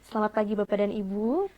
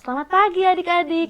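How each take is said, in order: First: It is said in a formal, restrained tone. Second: It is said in a cheerful, lively tone.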